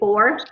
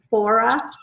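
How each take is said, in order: First: The word ends cleanly, with no added vowel. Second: The word ends with an extra uh vowel. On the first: The speaker calls it right. "instead of four" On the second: The speaker calls it wrong. "they say fora"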